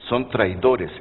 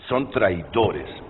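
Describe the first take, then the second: First: It is read at a normal, quicker pace. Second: It is read slowly and deliberately.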